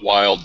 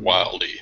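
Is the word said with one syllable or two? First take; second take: One; Two. First: The word is said as one syllable. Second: The word is said as two syllables. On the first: "I pronounce it wild" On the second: "however you want to pronounce it"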